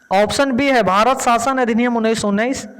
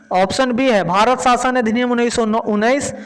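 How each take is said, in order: No difference in how they are said.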